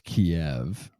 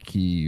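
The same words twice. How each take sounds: First: The city name is said in its older form. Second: The city name is said in its newer form. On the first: This is how the speaker believed it was said. The speaker calls it wrong. "I thought it was Kiev" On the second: This is how others now say it. The speaker calls it right. "they keep saying Kiev"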